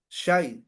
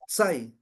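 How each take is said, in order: First: The word begins with an sh sound. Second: The word begins with a plain s sound.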